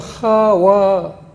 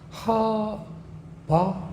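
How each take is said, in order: First: The middle consonant is a w sound. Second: The middle consonant is a b sound. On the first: "와르 발음" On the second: "바르 발음"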